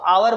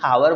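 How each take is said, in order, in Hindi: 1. यह शब्द स्वर ध्वनि से शुरू होता है। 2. यह शब्द "h" ध्वनि से शुरू होता है। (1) "इसको आवर बोलते हैं" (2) "ना कि हावर बोलते हैं"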